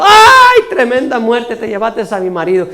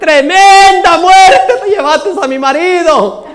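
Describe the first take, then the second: First: Widow's cry, fading. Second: Loud, high, drawn-out lament; widow's mock wail. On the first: Acted. Preacher retells the widow's cry, mock shriek quickly subsiding. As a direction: shriek the first word, then toss off the lament. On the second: Widow cries out at the thieving cat, loud mock wail. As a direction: howl it slowly with hammed-up grief. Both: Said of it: "pegaba a la mujer el grito".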